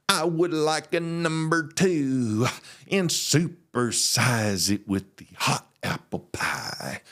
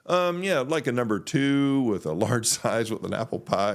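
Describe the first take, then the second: First: Very slow, drawn-out pastor voice; preacher drawl. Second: Said in the usual way. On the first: Retold or imitated. Imagining his pastor ordering at McDonald's, slow preacher drawl. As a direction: preach the fast-food order, stretching every word. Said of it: "what I was expecting him to, to say". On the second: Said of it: "he was talking like you and me".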